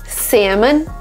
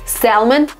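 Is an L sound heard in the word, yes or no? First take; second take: no; yes. First: The word is said with no L sound. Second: The word is said with an L sound. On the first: This is the American pronunciation. "Salmon, American" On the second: This is the British pronunciation. "Salmon, British"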